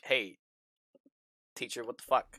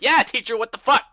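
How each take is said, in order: First: Low-key mock challenge to teacher; retold challenge. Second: High, loud mock rallying cry; retold group outburst. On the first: Player recalling their group questioning teacher, low-key mock challenge. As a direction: toss it off low and soft, retelling. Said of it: "we've been like". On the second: Player imitating everybody backing up the challenge, loud mock outrage. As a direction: imitate a whole class chiming in loudly. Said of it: "And everybody's like".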